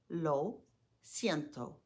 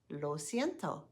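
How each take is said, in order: First: The phrase is said slowly. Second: The phrase is said faster. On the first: "Say it slowly after me" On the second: "Now a bit faster"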